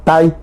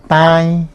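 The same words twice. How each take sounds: First: "Tai" with a stressed, clear oral A; "Tai" as one beat led by a strong A. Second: "tai" with the A sent through the nose; "tai" with a held nasal vowel. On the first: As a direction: lean on the A of "Tai", no nasal sound. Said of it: "ese lleva acento ortográfico". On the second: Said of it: "La A es nasal". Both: Shown as a demonstration.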